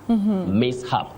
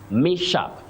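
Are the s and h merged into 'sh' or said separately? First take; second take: separate; merged. First: The s and h are pronounced as separate sounds. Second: The s and h merge into one 'sh' sound. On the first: The speaker calls it right. "The S and H are pronounced separately" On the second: The speaker calls it wrong. "let us avoid saying mishap. Mishap, no"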